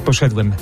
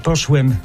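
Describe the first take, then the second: First: The word is said in its full form. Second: The word is said in a shortened form. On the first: The speaker calls it right. "zamiast poszedłem" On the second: The speaker calls it wrong. "mnie denerwuje, kiedy się mówi poszłem"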